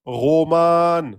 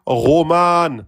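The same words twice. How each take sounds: The two takes are said the same way.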